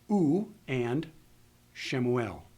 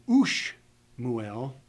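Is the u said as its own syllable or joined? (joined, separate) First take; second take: separate; joined. First: The u is said as its own syllable. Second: The u is joined to the following sh. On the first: The speaker calls it right. "we say u and Shemuel" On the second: The speaker calls it wrong. "we don't say ush muel"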